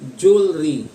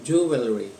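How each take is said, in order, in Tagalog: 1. Ito ay pinaikli sa mas maikling anyo. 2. Ito ay nagsisimula sa buong tunog na 'joo'. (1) "may mga native speakers na lalong pinaikli" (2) "hindi ho siya J, kung hindi Ju"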